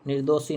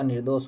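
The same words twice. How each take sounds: First: निर्दोषी said with a final ई as the wrong form; the incorrect निर्दोषी, ending in ई; wrong form shown. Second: निर्दोष said with no final vowel, ending on ष; the right form निर्दोष, without the ई; correct form shown. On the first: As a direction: say निर्दोषी ending in ई, marked as the mistake. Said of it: "निर्दोष होता है". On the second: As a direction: give the correct निर्दोष, cut clean after ष. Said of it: "निर्दोषी नहीं होता". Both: Shown as a demonstration.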